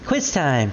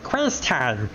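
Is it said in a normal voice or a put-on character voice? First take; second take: normal voice; character voice. First: It is said in his normal voice. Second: It is said in a put-on Guilmon voice.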